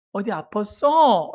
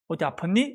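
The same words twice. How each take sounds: First: Put-on slow, drawn-out mom talking to her baby; mother's baby talk. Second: Said in the usual way. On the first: Shown as a demonstration. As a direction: stretch it out tenderly, as if to an infant. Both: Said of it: "이렇게 어른에게 말하는 말투가 아니죠".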